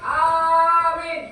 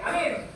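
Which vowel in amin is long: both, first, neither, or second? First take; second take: first; neither. First: The first vowel is long, the second short. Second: Both vowels are short. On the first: Believe! "Alifnya panjang, mimnya pendek" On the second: Safe. "alifnya pendek, mimnya pendek"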